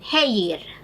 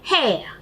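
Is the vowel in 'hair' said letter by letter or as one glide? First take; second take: letter by letter; one glide. First: The vowel is sounded out as it is spelled. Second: The vowel is one gliding diphthong sound. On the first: The speaker calls it wrong. "This is how we see it being written" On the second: The speaker calls it right. "No, it has to be pronounced as hair"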